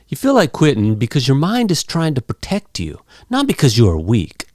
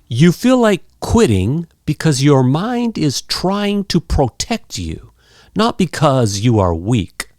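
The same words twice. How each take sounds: First: It is spoken quickly with sounds reduced and linked. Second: It is spoken slowly with every sound clear. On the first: "some nice, fast, casual English" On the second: "let me say it clear"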